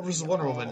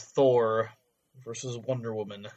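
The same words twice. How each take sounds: First: It is said with lively enthusiasm. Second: It is said flatly, with little enthusiasm.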